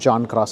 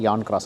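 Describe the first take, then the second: First: The name begins with a J sound. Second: The name begins with a Y sound. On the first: This follows how the name is written. "రాయడమేమో జాన్ క్రాస్ అని రాస్తారు" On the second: This is how local people say it. "ఇక్కడ వీళ్ళందరూ జేని యాలాగా పలుకుతారు"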